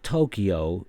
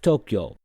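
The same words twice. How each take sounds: First: The word is said with three syllables. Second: The word is said with two syllables. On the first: The speaker calls it wrong. "it's not Tokyo" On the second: The speaker calls it right. "It's two syllables"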